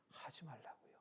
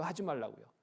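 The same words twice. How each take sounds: First: "하지 말라고요" nearly whispered, falling at the end; hushed answer. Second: "하지 말라고요" asked back as a question; voiced query on "하지 말라고요", seeking confirmation. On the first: Retold or imitated. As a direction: drop to a very soft, settled "하지 말라고요". ("하지 말라고요"를 나직이 속삭이듯) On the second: Asked as a question, then answered. ("하지 말라고요"를 되묻듯이)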